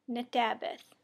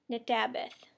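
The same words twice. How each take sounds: First: Nadabeth with full na- start, na-ta-beth; Sauk word demo. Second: Nadabeth said clipped, opening on a t sound; Sauk word demo. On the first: Teacher repeats the Sauk for I'm happy, careful take. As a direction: Nadabeth spoken whole, every syllable there. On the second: Teacher says the Sauk for I'm happy, short take. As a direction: Nadabeth as tabeth, first syllable dropped. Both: Shown as a demonstration. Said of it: "Okay, the first word is".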